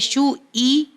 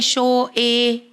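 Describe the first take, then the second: First: The vowels sound like 'u' and 'i'. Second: The vowels sound like 'o' and 'e'. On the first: The speaker calls it right. "ये सही मखरज है और सही अदायगी है" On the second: The speaker calls it wrong. "अक्सर लोग पेश को ओ का साउंड देते हैं"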